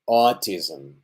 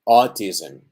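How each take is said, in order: Both takes have the same delivery.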